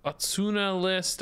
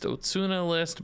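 First: "Otsuna" opening on an open "ah", drawn out slowly; first-vowel "ah". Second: "Otsuna" opening on a rounded "oh"; first-vowel "oh". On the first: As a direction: say Otsuna as "AH-tsuna". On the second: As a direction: say Otsuna as "OH-tsuna". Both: Real, not acted. Trying two pronunciations of a name.

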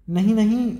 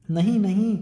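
First: High, loud desperate cry of no; scream. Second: Raised, louder pleading no; a boy pulling free, crying no; frightened protest. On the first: A narrator's reading. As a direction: scream it, begging. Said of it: "Oliver चीखा". (ऊँची घबराई चीख) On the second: Acted. Oliver resists being dragged. (डरा हुआ इनकार)

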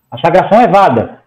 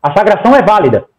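No difference in how they are said.

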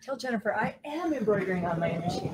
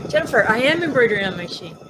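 First: Softly, as a side remark to a co-host; quiet aside. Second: Announcing to viewer. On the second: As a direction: tell the viewer directly and brightly. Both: Real, not acted. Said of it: "You tell her".

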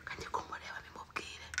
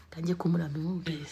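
First: Hushed whisper. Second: Said in the usual way. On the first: Real, not acted. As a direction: keep it secret, whisper it. Whispering plan, repeated aloud.

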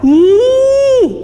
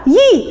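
First: "يي" held long on a high, level note; long vowel. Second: "يي" as one quick, short syllable; short vowel. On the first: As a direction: stretch the ee of "يي" steadily, high. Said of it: "مع مد". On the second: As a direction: say "يي" briefly, without holding the vowel. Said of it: "صوت قصير". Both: Shown as a demonstration.

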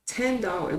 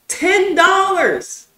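First: Said in the usual way. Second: Drawn-out incredulous yell, much higher and louder; outraged shout. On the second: Real, not acted. Ranting about his tax-job wage, a slow outraged yell. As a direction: slowly bellow it as if insulted. Venting about ten dollar pay.

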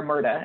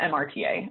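First: Murta run together as one two-syllable word. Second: M R T A said letter by letter; name each letter in M R T A; spelled out. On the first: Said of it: "as some people call it". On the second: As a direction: say M R T A as four separate letters. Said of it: "how you abbreviate the bill". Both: Shown as a demonstration.

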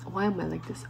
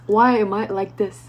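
First: Softly lamenting; quiet self-reproach. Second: Fuller-voiced lament; exasperated question to oneself; emphatic self-reproach. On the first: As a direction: say it under your breath to yourself. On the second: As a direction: ask it out loud, with more force. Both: Real, not acted. Same question repeated, quiet then loud.

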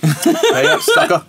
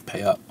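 First: High, laughing taunt; gloating laugh. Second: Said in the usual way. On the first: Real, not acted. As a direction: crow it through a laugh. Bet win, said twice.

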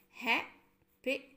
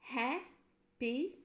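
First: Happily said slowly, rising at the end; syllable demo. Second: Happily drawn out slowly with a rise; slow syllable demo. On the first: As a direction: spell out Happily by sound. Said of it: "three syllables". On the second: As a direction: stretch out Happily for the class. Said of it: "In ha, we have a sound". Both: Shown as a demonstration.

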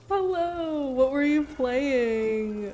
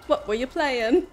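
First: High, slow sing-song greeting; high put-on voice. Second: High, louder mock-British question; hammy Cockney, lilting up; British accent. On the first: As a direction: stretch it out in a silly voice. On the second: Asking raider about their stream, hammed-up British accent. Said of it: "they asked me to do a British accent".

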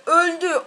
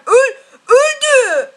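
First: Said in the usual way. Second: Laughing. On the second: Real, not acted. Enemy dies, laughing.

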